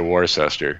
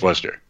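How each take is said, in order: First: The name is pronounced following its written spelling. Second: The name is pronounced in the local English way. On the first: This is how outsiders say the name. The speaker calls it wrong. "Most people would say Worcester" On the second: This is how locals say the name. The speaker calls it right. "But it's Worcester. And we pronounce it more like the English do"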